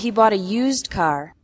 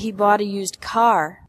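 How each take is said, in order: First: The word "used" carries the stress. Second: The word "car" carries the stress. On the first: The car was not new. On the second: It was a car, not a motorcycle.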